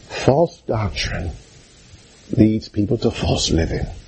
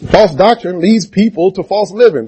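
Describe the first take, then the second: First: The sentence is said at a softer volume. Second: The sentence is said at a louder volume.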